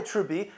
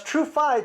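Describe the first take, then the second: First: Trubi with bee in place of fie; F turned to B. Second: Said in the usual way. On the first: Shown as a demonstration. Driving home the confusion, TrueFi said as Trubi with a B. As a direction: swap the f for a b in Trubi. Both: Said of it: "They would pronounce TrueFi".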